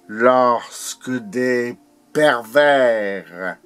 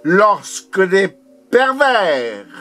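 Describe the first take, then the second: First: Slow, broken poetic phrasing; deliberate, held-back recitation; measured declamation. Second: High, forceful poetic outcry; insistent, high-pitched recitation; impassioned declamation. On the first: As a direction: recite it slowly with weighty pauses. Poem line, first measured take. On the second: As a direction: proclaim it with rising intensity. Poem line repeated more intensely. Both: Acted.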